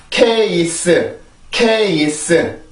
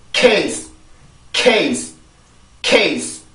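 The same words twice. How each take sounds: First: "케이스" slowly split into three full syllables; Korean three-syllable case. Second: "케이스" as one falling syllable with a voiceless final s; one-syllable English case. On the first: Teacher showing how Hangul writes it, slow separate syllables. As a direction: spell out "케이스" slowly, each syllable voiced. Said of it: "이렇게 삼 음절로 쓰이지만". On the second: Teacher drilling English case for learners, single falling syllable. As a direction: burst the k and run "케이스" into one sound. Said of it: "요렇게 발음이 되는데". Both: Shown as a demonstration.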